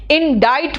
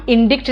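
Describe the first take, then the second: First: इंडाइट said in-DITE, silent c, rhymes with write; the right way, इंडाइट with a long "ai"; correct pronunciation. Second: इंडिक्ट said as written, in-DIKT with a hard k; the mistaken reading इंडिक्ट, sounding the c; wrong pronunciation. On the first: Teacher giving students the correct इंडाइट. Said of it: "इसको इंडाइट pronounce करते हैं". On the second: Teacher showing students the wrong way to say इंडिक्ट. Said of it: "इंडिक्ट नहीं बोलते हैं". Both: Shown as a demonstration.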